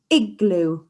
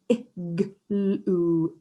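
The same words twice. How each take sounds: First: Said in the usual way. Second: "Igloo" split slowly into ih-g-l-oo; segmented "Igloo", one sound at a time. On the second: Shown as a demonstration. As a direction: sound out each part of "Igloo" with gaps. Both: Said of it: "Can you say it at home with me".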